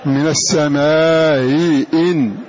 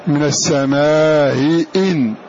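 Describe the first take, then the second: Both takes have the same delivery.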